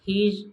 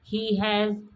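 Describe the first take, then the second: First: The two words are merged into one word. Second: The two words are said separately in full. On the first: "ही हैज़ हीज" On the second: "ही हैज़ हीज"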